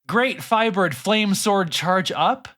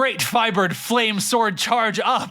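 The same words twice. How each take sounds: First: The voice rises at the end like a question. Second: The voice falls at the end, said forcefully. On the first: The speaker sounds uncertain. "hearing these with a question mark intonation at the end is hilarious" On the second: The speaker sounds confident. "give me a read with power this time? Without a question mark"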